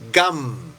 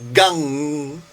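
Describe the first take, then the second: First: The syllable ends with a closed-lip m sound. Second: The syllable ends with a back-tongue ng sound. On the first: "en vez de decir gam" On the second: "haces gan ... como G-A-N-G, la N G es como que la colocas, la colocas la lengua hacia atrás"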